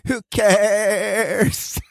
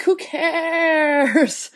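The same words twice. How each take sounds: First: Vocal fry. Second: Creaky, drawn-out fry voice; vocal fry. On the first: Retold or imitated. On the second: Pretend. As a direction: drag it out in a deliberate vocal fry. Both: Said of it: "I love that you just did intentional vocal fry".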